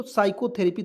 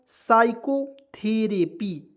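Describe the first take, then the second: First: Said in the usual way. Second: साइकोथेरेपी slowly, syllable by syllable; slow teaching model of साइकोथेरेपी, P silent; demonstrated pronunciation. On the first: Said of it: "इस word को एक बार दो बार याद कर लीजिए". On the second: Shown as a demonstration. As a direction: spell out साइकोथेरेपी by sound, slowly, starting on S. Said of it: "क्या पढ़ेंगे दोस्तों".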